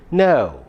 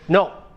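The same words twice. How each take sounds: First: The vowel glides from one sound into another. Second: The vowel is one steady sound without glide. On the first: The speaker calls it right. "The correct pronunciation is no, oh" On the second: The speaker calls it wrong. "That's a wrong pronunciation again"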